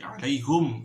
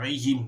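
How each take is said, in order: First: The word ends with the syllable 'hum'. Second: The word ends with the syllable 'him'. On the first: "tetapi alaihum" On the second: "jangan alaihim"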